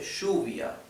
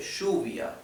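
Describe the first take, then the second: First: The double L has the Argentine-Uruguayan sound. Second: The double L has the Argentine-Uruguayan sound.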